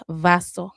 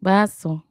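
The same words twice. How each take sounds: First: "vaso" begun with a clear English v; v sound. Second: "Vaso" begun with a b, as in ball; b sound. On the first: Rebel learner showing viewers "vaso" with a v sound. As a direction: say "vaso" with a buzzed v rather than a b. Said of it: "if you are a rebel without a cause". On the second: Learner echoing the Spanish course, "Vaso" said with a b sound. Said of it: "pronounce it with the b sound". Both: Shown as a demonstration.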